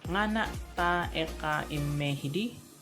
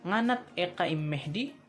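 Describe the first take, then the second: First: It is said slowly with every syllable full. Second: It is said fast with syllables contracted.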